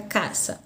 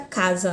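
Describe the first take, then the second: First: The middle consonant sounds like s. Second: The middle consonant sounds like z. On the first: "na língua espanhola fica caça" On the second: "na língua portuguesa aqui fica casa"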